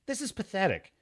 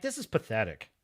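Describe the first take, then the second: First: "This is pathetic" restated, clearer with a sharp fall; firmer repeat. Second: Low, soft disbelief under the breath; quiet disgust. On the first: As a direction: repeat "This is pathetic" as a firm verdict. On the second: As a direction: say "this is pathetic" low and quiet, to yourself. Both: Real, not acted.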